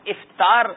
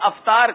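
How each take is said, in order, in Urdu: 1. پہلا حرف علت i ہے۔ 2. پہلا حرف علت i نہیں ہے۔ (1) "الف کے نیچے زیر ہے" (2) "افطار کرنے نہیں جاتے ہم"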